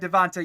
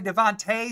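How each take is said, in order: First: The name ends without the final 'ay' sound. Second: The name ends with a final 'ay' sound. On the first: The speaker calls it wrong. "I've always said Devonta" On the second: The speaker calls it right. "I need to say Devontae Smith"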